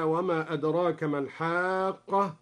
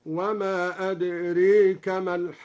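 First: Said in the usual way. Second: "أدريك" as adreeka, the long a bent to ee; imala. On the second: Shown as a demonstration. Sheikh demonstrates imala, "أدريك" said adreeka. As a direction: recite with "أدريك" tilted from aa toward ay. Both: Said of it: "أمال أدراك هكذا".

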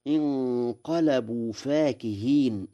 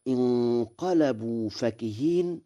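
First: فاكهين with a long "faa"; alif after fa. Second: فكهين with a short "fa"; short vowel reading. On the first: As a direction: say فاكهين as "faakiheen". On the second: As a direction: say فكهين as "fakiheen", no long alif. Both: Shown as a demonstration. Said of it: "بألف بعد الفاء".

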